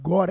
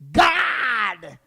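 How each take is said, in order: First: The vowel sounds like an open 'aw'. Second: The vowel sounds like a flat 'a'. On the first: "Not God, eh?" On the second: "they the O, they turn at A ... So it's G A D"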